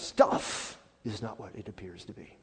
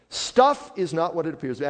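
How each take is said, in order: First: Said in the usual way. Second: "Stuff" hit hard, louder voice; emphatic repeat. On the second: Real, not acted. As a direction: drive it home loudly from the word "Stuff". Emphatic repeat of the same statement.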